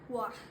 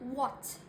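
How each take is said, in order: First: The final T is dropped or swallowed. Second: The final T is pronounced clearly. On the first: "in some other accents of British, like the Cockney accent" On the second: "The T in modern R P accent especially should be very clear"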